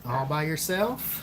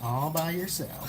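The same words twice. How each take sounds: First: Slow "All by yourself?" rising at the end; drawn-out question. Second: Slow, softer "All by yourself." as an answer; drawn-out confirmation. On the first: Checking the child's claim back. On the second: Answering the child's eager question. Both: Real, not acted.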